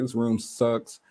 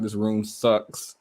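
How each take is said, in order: First: Said in the usual way. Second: Slow, drawn-out "This room sucks"; blunt complaint. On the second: Retold or imitated. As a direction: drag out "This room sucks" flatly and slowly. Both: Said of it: "I didn't say it like that".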